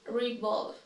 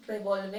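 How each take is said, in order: First: "revolve" as ri-VOLV; "revolve" opening with ree; correct pronunciation. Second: "Revolve" as reh-VOL-veh; "Revolve" with eh in the first syllable; mispronounced. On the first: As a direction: say "revolve" in two syllables, silent final e. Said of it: "then I'll say it correctly". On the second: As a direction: say "Revolve" with a sounded final e. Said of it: "I will say each one incorrectly". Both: Shown as a demonstration.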